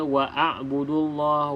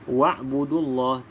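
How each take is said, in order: First: An a vowel comes between wa and b. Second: No vowel comes between wa and b. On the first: The speaker calls it wrong. "tidak perlu kita baca" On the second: The speaker calls it right. "abaikan saja hamzah wasal ini dalam bacaan"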